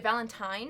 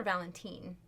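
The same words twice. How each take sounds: First: Valentine ending like "tine", rhyming with "fine"; -tine pronunciation. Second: Put-on Valentine ending like "teen"; -teen pronunciation. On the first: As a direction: say Valentine with a long I in the last syllable. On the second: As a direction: say Valentine with an "ee" sound in the last syllable. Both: Shown as a demonstration. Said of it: "is it Valentine or Valentine".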